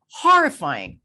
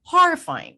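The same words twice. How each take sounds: First: Louder, stressed horrifying; emphatic. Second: Horrifying much higher and louder; exaggerated emphasis. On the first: Host judging her past self, stressing horrifying. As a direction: lean on horrifying. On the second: Host topping her own word, horrifying higher and louder. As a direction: push horrifying up into a cry. Repeats word, rising to climax. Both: Real, not acted.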